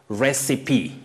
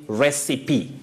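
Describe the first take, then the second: No difference in how they are said.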